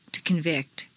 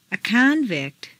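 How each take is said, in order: First: ConVICT, stressed on the second syllable. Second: CONvict, stressed on the first syllable. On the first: Teacher models verb "convict", second-syllable stress. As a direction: hit VICT in "convict". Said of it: "to the second syllable". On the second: Teacher models noun "convict", first-syllable stress. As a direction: hit CON in "convict". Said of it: "first syllable for nouns". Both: Shown as a demonstration.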